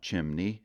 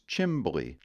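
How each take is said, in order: First: The middle sounds are m and n. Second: The middle sounds are m, b and l. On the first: The speaker calls it wrong. "It's not chimney" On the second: The speaker calls it right. "it's chimbly"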